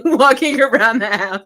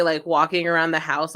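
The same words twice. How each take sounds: First: Louder, laughing through the words; laughing repeat. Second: Said in the usual way. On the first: Retold or imitated. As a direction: repeat it cracking up.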